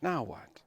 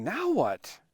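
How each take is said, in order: First: Softly wondering aloud; hushed, uncertain question; quiet wondering. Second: Higher-pitched, eager question; keen and expectant, without shouting; excited asking. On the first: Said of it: "still wondering". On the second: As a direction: ask it with lifted, contained excitement. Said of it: "excitedly asking". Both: Retold or imitated.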